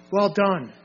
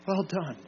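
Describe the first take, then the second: First: Firm praise at a normal volume; commendation. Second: Hushed commendation. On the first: Preacher voices approval to those overcoming, firm commendation. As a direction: commend them clearly with a falling close. Voicing divine praise, then repeating it. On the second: Preacher voices approval to those overcoming, hushed commendation. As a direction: repeat the praise gently, much quieter. Praise repeated more softly. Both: Acted.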